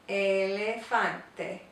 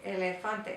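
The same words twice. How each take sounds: First: The word is said slowly. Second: The word is said quickly. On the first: "just slow it down a little bit" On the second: "then you can speed it up"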